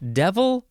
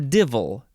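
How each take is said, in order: First: The first vowel sounds like 'eh', as in dev. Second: The first vowel sounds like 'ih', as in div.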